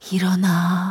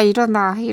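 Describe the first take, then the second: First: It is said in an eerie, echoing, frightening voice. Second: It is said in an ordinary, plain voice. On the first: It sounds like a frightening call heard in a nightmare. "우리가 가위 눌릴 때 좀 극대화 하잖아요. 모든 공포나 어떤 그쵸, 공명이나" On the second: Someone is simply waking a person up. "이게 아니라"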